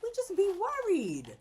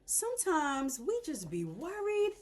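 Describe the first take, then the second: First: High, loud repeat of We just be worried; a sung-out sermon echo; echoed preach. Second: Drawn out, slow lesson line; preachy message. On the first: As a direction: ring it out like a refrain. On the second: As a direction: deliver it like a sermon point. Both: Shown as a demonstration.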